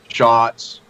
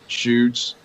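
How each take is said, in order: First: The name begins with sh, short o. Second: The name begins with sh, rhyming boots. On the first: "slaughtered my both my names" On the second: "slaughtered my both my names"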